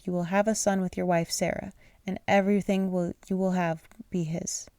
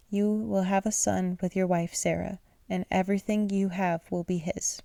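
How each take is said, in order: First: Tripping over the words; stumbling misread. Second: Said in the usual way. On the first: Real, not acted. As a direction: read it wrong, stumbling. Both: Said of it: "Let me reread that".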